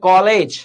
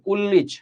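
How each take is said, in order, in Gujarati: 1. પહેલો સ્વર બહોળો અને વિવૃત છે. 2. પહેલો સ્વર સાંકડો અને સંવૃત છે. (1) "કોલેજ એ બહોળું એટલે વિવૃત ઉચ્ચારણ છે" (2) "કુલ્લીજ એ સાંકડું ઉચ્ચારણ છે"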